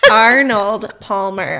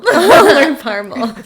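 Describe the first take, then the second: First: It is said carefully with every sound clear. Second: It is said fast with the sounds jumbled. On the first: The speaker calls it right. "I can say if I think about it" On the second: The speaker calls it wrong. "if I say it fast, I say I'll learn Parmal"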